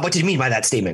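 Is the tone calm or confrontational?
confrontational. The question is asked in a sharp, accusing tone. An accusation that puts the listener on the defensive. The speaker calls it wrong. "you mind your tone. It's like, Bob"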